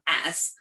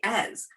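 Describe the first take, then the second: First: The word ends with a hissing s sound. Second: The word ends with a buzzing z sound. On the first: The speaker calls it wrong. "We don't say it's an as" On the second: The speaker calls it right. "We say as"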